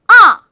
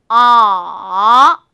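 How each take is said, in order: First: The pitch drops sharply from high to low. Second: The pitch dips very low, then rises again. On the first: "그 높은 음에서 아주 낮은 음으로 뚝 하고 떨어뜨리는 게 바로 사성입니다" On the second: "삼성은요, 약간 낮은 음에서 시작해서요. 그 다음에 아주 낮은 음으로 뚝 떨어뜨리세요"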